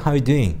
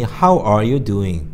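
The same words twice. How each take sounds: First: "How you doing" run together, no "are"; casual reduced "How you doing"; ARE dropped. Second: Said in the usual way. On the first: Shown as a demonstration. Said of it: "생략하기 때문에". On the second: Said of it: "보통 우리 당연히".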